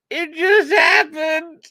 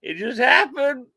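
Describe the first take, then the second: First: Very high, loud, slow mock wail; drawn-out comic high voice; squeaky exaggerated excuse. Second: High-pitched mock protest; high joking excuse. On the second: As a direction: say it high, playfully defensive.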